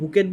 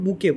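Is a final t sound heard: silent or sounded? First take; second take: sounded; silent. First: The word ends with a t sound. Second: The word ends without a t sound. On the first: The speaker calls it wrong. "আমি বুকেট বুলি উচ্চাৰণ নকৰোঁ" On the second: The speaker calls it right. "আমি উচ্চাৰণ কৰোঁ বুকে বুলি"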